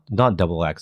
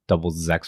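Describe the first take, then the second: First: The X is said as the letter name. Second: The X is said like 'zex'. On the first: The speaker calls it wrong. "it's not not double X" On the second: The speaker calls it right. "technically like double Zex or something like the actual pronunciation of it"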